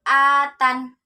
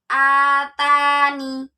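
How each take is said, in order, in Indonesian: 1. Kata ini berakhir dengan konsonan 'n'. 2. Kata ini berakhir dengan suku kata 'ni'. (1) "boleh dibaca atan" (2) "boleh dibaca atani"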